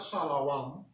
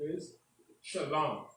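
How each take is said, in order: First: The second syllable has an O vowel. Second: The second syllable has no O vowel. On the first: The speaker calls it wrong. "It's not shalom. ... Have no O" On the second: The speaker calls it right. "peace in the Hebrew, an ancient Hebrew, is shalom"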